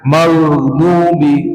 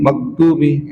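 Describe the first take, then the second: First: The 'gh' sound flows continuously. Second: The 'gh' sound stops with a bouncing release. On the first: "suaranya mengalir" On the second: "kalau enggak mengalir dia menjadi qalqalah"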